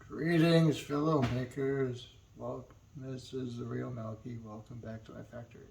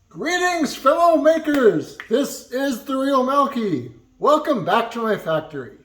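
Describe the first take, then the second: First: It is said in a sleepy, low-energy way. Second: It is said in an awake, energetic way.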